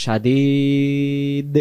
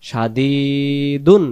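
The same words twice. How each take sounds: First: সাদিদ with a very long ee, stopping on d; pausal ending. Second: সাদিদুন with long ee, then un sounded; full ending. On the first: Teacher showing the pause form, সাদিদ stretched to a final d. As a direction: drop the un and hold the ee of সাদিদ. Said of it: "দুই পেশ আর উচ্চারণ করব না". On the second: Teacher spelling it out, সাদিদুন with its un ending voiced. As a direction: say the final dun of সাদিদুন. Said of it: "দুই পেশ উচ্চারণ হবে না". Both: Shown as a demonstration.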